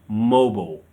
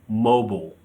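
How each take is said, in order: The two takes are said the same way.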